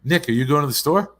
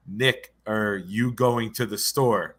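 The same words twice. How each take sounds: First: Higher, louder mom's question with the words run together; quick run-together question. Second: Slow, spaced "Nick, are you going to the store"; slowed-down demonstration. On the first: Retold or imitated. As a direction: run "Nick, are you" together quickly. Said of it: "say those two words fast". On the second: Shown as a demonstration. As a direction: lay out each word slowly so "Nick" and "are" separate. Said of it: "'Cause it sounded like".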